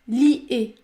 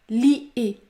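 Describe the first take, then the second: No difference in how they are said.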